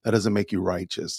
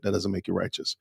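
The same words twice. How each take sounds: First: Said in the usual way. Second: Hushed repeat, almost no voice; whisper. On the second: Acted. Commentator repeating the rebuke to Michelle, whispered. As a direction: lean in and breathe it as a pointed whisper.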